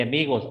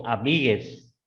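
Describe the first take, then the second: First: Said in the usual way. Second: "amigues" ending in es instead of os; inclusive ending. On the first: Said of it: "En vez de amigos". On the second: Shown as a demonstration. Teacher citing inclusive language to students, "amigues" with final es. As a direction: end "amigues" with an es sound. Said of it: "En vez de amigos, amigues".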